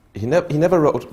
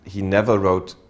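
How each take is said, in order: First: Never pushed higher and louder; stress on never. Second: Said in the usual way. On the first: Real, not acted. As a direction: lean hard on never in the restart.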